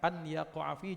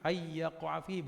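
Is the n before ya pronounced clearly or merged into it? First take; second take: clear; merged. First: The n is pronounced clearly before the y. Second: The n merges into the following y sound. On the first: "dibaca an yaqa'a fihi juga boleh supaya jelas" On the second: "kalau mau diidghamkan"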